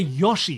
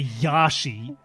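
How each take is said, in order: First: The first vowel sounds like a rounded 'oh'. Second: The first vowel sounds like an open 'ah'. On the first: The speaker calls it right. "with a fundamental O sound" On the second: The speaker calls it wrong. "With your with your O's and your A's sounding the same"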